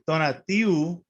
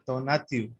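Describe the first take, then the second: First: The ending is a separate oo vowel. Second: The ending is a short w glide. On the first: The speaker calls it wrong. "most people would pronounce it donatiu ... there's no U" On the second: The speaker calls it right. "It's a W sound"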